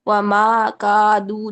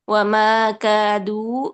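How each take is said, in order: First: The long vowels are said with a wide-open mouth. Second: The long vowels are said with a less open mouth. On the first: The speaker calls it wrong. "अलिफात को भी बड़ा मुंह खोल के ना पढ़िए। वमा कादू नहीं" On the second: The speaker calls it right. "कम मुंह खोलें अरबी लहजे में"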